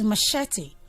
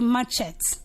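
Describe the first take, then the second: First: The middle consonant is a sh sound. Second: The middle consonant is a ch sound. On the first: The speaker calls it right. "It's machete" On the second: The speaker calls it wrong. "try not to say machete"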